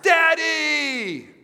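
It is called out in a happy voice.

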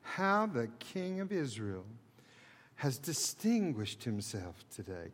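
It is said slowly in a mocking tone. The speaker calls it right. "Can't you just hear it dripping?"

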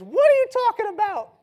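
It is said in a put-on character voice.

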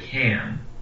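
The vowel is said with a Midwestern shift. The speaker calls it wrong. "we often say can"

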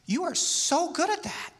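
The voice sounds warm and admiring. The speaker truly admires the listener's skill. "that's what I'm really admiring. I think that's great. That's admiration"

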